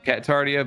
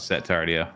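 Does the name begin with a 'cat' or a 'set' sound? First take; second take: cat; set. First: The name begins with a 'cat' sound. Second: The name begins with a 'set' sound. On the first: "I know it's Cat" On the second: "I thought Set Tardio"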